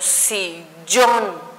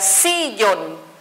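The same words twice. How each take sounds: First: The stress falls on the last syllable. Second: The stress falls on the first syllable. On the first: The speaker calls it right. "Por lo tanto, digo sillón" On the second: The speaker calls it wrong. "Si yo pusiera aquí mi acento, diría sillón, entonces no la estaría pronunciando correctamente"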